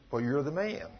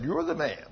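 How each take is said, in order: First: Soft, low, final accusation; grave accusation. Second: Grave accusation. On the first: Prophet softly telling David he is the man. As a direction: let it land quietly. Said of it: "the prophet said". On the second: Prophet quietly accusing King David. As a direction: hand down the verdict quietly. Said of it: "the prophet stood up and pointed his finger". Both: Retold or imitated.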